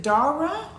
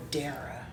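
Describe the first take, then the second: First: Dara drawn out as DAH-ruh; first-syllable AH in Dara. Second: Dara drawn out as DAIR-uh; first-syllable EH in Dara. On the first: Checking a viewer's name, Dara slowly said DAH-ruh. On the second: Checking a viewer's name, Dara slowly said DAIR-uh. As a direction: slowly say Dara to rhyme with Sarah. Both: Shown as a demonstration. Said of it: "Tell us how to pronounce your name".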